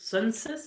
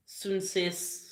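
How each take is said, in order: First: Sunsis asked as a question, rising at the end; checking Sunsis, tune going up; unsure retry. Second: Sunsis sounded out slowly, long final s; careful name try. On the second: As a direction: carefully spell out Sunsis by ear. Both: Shown as a demonstration. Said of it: "I hope I'm saying that correctly".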